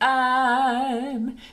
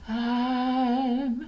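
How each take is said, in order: First: The word starts with a hard glottal catch. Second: The word starts with a soft breathy onset. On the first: "it's kind of the glottal beginning, a little bit harder" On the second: "It's the breathy onset"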